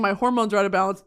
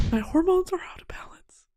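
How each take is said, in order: First: Said in the usual way. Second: Hoarse whisper. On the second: Shown as a demonstration. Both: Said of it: "repeats it whispering".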